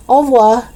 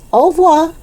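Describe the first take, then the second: First: Put-on "Au revoir" in a deliberately un-French accent; very English-sounding French farewell, pitched up. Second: High, lilting French "Au revoir"; bright-pitched teacher's farewell called out in French; calling after someone. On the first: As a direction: call back high in badly anglicised French. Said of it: "most un-French accent he could manage". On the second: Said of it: "she called after him". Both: A narrator's reading.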